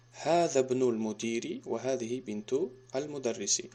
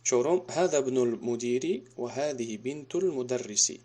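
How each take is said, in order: First: Slow, careful Arabic read-aloud; slow model reading. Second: Said in the usual way. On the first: Shown as a demonstration. Teacher repeats the sentence slowly for students. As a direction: spell out each word slowly for the class. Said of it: "teacher repeats it for students". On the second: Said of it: "teacher reads the example sentence".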